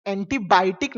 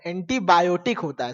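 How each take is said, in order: First: एंटीबायोटिक said as "entibaitik", yo dropped; mock the old folks' एंटीबायोटिक as "entibaitik"; village-style एंटीबायोटिक, "entibaitik"; wrong pronunciation. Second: एंटीबायोटिक said fully as "entibayotik"; correcting: एंटीबायोटिक, "entibayotik"; correct pronunciation. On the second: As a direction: give the proper एंटीबायोटिक with the yo clear. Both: Shown as a demonstration. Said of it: "एंटीबायोटिक नहीं होता है".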